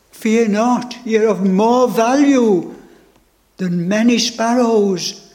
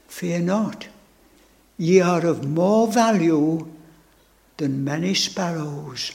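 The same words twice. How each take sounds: First: Ringing, joyful proclamation; proclaimed triumph. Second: Tender reassurance. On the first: Acted. Preacher proclaiming the Lord's promise to the congregation, ringing. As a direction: declare it to the whole room. Same words proclaimed aloud. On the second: Retold or imitated. Preacher quoting the Lord's comfort to his soul, hushed and tender. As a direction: speak it gently, like a blessing.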